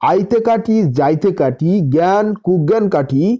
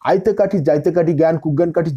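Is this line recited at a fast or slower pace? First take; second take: slower; fast. First: The line is recited at an unhurried pace. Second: The line is recited somewhat quickly.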